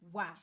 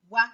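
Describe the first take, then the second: First: The syllable is said on a low tone. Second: The syllable is said on a high tone. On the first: It means exist or be available. "If you apply do to a" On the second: It means come. "if you apply me mark, which is I tone mark"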